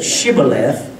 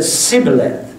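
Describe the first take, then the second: First: "shibboleth" with an opening SH sound; "shibboleth", hushing SH at the front. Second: "sibboleth" with an opening plain S sound; "sibboleth", S in place of SH at the front. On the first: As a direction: say "shibboleth" starting like "ship". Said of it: "that was their accent". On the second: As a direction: say "sibboleth" starting like "sip". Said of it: "The other said sibboleth". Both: Shown as a demonstration.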